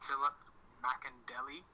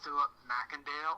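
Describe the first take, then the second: First: The surname ends with an added 'delly' syllable. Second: The surname ends with a single 'dale' syllable. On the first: The speaker calls it wrong. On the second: The speaker calls it right.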